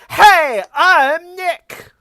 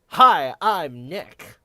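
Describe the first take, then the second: First: It is said at a loud volume. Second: It is said at a quiet volume.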